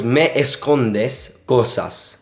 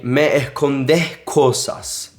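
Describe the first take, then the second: First: Escondes said slowly with its S's; Me escondes cosas drawn out; slow careful reading; slow demo. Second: Escondes said with S's breathed like H; Me escondes cosas with S softened to H; slow, S's turned into H breaths; aspirated S. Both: Shown as a demonstration. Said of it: "What she really said was".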